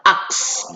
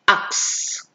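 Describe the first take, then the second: First: "axe" dengan akhiran ditekan sedikit; stressed ending. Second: "Axe" dibisikkan pelan, akhiran tegas; soft whispered demo. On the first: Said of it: "Agak ditekan sedikit pas waktu mengucapkan I D-nya". (akhiran "axe" ditekan sedikit) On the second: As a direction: bisikkan "Axe" lambat. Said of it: "Agak ditekan sedikit". ("Axe" dibisikkan pelan) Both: Shown as a demonstration.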